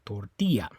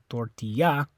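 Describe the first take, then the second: First: The stress is on the second syllable. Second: The stress is on the last syllable. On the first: The speaker calls it right. "It's on that I, tortilla" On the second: The speaker calls it wrong. "It's not the A, you don't say tortilla"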